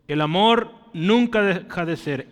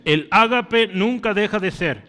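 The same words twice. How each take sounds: First: Said in the usual way. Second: Ágape swapped in and punched, said louder; the Greek word ágape pressed out louder in place of amor; stress on ágape. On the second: Shown as a demonstration. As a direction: hit the word ágape hard to mark the Greek term. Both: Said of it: "Tú vas a ver ágape varias veces repetido".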